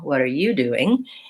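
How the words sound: The stress falls on you. The question is turned back to the other person. "I'm changing the stress to be on you"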